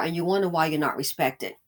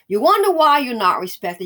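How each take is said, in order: First: Said in the usual way. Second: Louder, wonder hit hard; repeated line, wonder punched; emphatic repeat. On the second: Shown as a demonstration. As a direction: throw it back at them with force.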